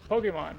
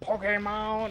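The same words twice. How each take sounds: First: The word is pronounced in a normal way. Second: The word is pronounced in a distorted way. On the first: The speaker calls it right. "I could just say it like a normal human being" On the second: The speaker calls it wrong. "it just gets worse and worse"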